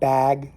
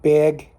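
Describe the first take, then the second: First: The vowel has a non-Jersey pronunciation. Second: The vowel has a New Jersey pronunciation. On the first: "or however they say it, um, in other parts of the country" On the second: "Put mine in the bag"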